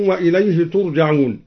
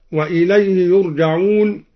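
First: ترجعون begun with tu, not yu; second-person reading. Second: Said in the usual way. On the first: Shown as a demonstration. Teacher showing al-Duri's address form, ترجعون with initial t. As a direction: recite ترجعون with a clear initial t. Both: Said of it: "قرأ الدوري بالخطاب".

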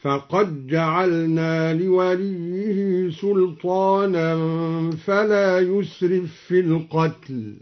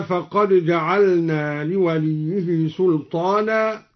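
First: Slow recitation, فقد جعلنا said "faqaj-ja'alna"; d merged into j. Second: Said in the usual way. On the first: Shown as a demonstration. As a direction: chant slowly, no d heard in فقد before جعلنا. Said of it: "أدغم الدوري الدال في الجيم".

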